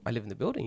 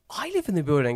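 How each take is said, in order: First: Said in the usual way. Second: Surprised echo. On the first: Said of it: "And I go". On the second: Retold or imitated. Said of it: "He goes".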